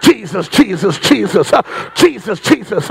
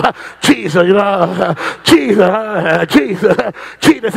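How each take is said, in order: First: Imitating altar seekers picking up speed; calling faster. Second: Slow, low calls on Jesus with gasps between; imitating altar seekers, drawn-out; slower calling. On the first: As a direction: fire the name off in quick succession. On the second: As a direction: call the name slowly, catching breath after each. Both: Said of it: "They call him faster".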